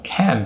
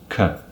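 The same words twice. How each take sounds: First: The word has a full, clear vowel. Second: The word has a reduced, weak vowel.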